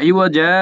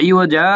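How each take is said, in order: Both takes have the same delivery.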